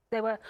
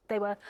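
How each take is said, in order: Both takes have the same delivery.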